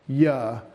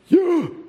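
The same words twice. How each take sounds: First: It is spoken while breathing out. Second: It is spoken while breathing in. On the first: "You exhale" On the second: "Isn't that how you inhale?"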